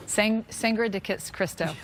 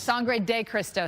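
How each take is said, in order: First: "Sangre de Kis-, Cristo" slow and halting, tripping on the words; tongue-tied. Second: "Sangre de Cristo" slowly, syllable by syllable; slow, careful. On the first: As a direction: stumble over "Sangre de Kis-, Cristo", restarting and garbling it. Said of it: "my mouth doesn't wanna say it". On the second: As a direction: sound out "Sangre de Cristo" carefully to get it right. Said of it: "I gotta do it slow". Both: Real, not acted.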